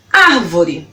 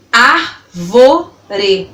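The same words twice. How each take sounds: First: Said in the usual way. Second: ÁRVORE slowly split into ár - vo - re; three separated beats on ÁRVORE; syllable by syllable. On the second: Shown as a demonstration. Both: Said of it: "falando elas pausadamente pra você".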